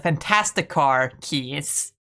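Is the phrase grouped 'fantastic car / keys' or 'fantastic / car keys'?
fantastic car / keys. Fantastic car is grouped, then keys. These are the keys to the Fantastic Car. "they would technically be the keys to the fantastic car"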